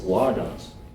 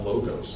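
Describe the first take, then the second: First: The first vowel is a short O. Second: The first vowel is a long O. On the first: The speaker calls it right. "It's logos. Because it's a... short O" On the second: The speaker calls it wrong. "It's not logos"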